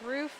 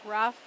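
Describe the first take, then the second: First: The name has a long oo vowel. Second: The name has a short uh vowel. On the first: The speaker calls it right. "My last name is Roof" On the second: The speaker calls it wrong. "it's been said several times today as Rough"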